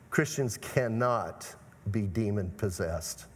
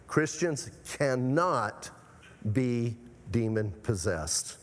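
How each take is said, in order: First: Slow, low, firm stress on "cannot"; emphatic. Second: Very slow, "cannot" drawn out, pauses before and after "be"; emphatic. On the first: Preacher stating doctrine to the congregation, emphatic. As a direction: lower the voice and lean on "cannot", then pause. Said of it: "I say that emphatically". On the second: Preacher countering doubters in the congregation, emphatic. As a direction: hammer "cannot" slowly, then space out "be demon possessed". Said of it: "Why am I so emphatic about that?". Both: Real, not acted.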